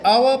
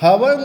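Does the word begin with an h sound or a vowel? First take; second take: vowel; h sound. First: The word begins with a vowel sound. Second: The word begins with an h sound. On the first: The speaker calls it right. "इसे आवर पढ़ते हैं। ओ का उच्चारण आता है, एच का नहीं आता है।" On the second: The speaker calls it wrong. "हवर नहीं पढ़ते हैं"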